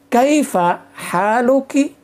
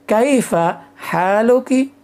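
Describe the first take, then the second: No difference in how they are said.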